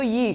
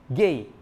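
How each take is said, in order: First: The word begins with a y sound. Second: The word begins with a hard g sound. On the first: This is the modern Greek pronunciation. "Modernnya itu yi" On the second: This is the older Greek pronunciation. "Dalam bahasa Yunaninya itu dari kata ge"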